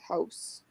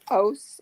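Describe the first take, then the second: First: It is said in a neutral standard accent. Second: It is said in a strong local regional accent. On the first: This is the way the speaker had to talk at work. "but for work, I had to say house" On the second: The speaker keeps the way people talk back home. "Didn't forget his home roots"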